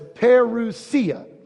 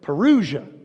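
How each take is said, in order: First: The word is said the Greek way. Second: The word is said the American way. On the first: The speaker calls it right. "but it's" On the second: The speaker calls it wrong. "Sometimes in America, we pronounce it"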